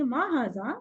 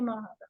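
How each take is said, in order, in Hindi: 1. यह सवाल वाले सुर में कहा गया है। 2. यह सपाट लहजे में कहा गया है, सवाल वाले सुर के बिना। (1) "जब भी आप क्वेश्चन करेंगे तो थोड़ा सा इस तरह से करेंगे ना" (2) "यूं नहीं करेंगे"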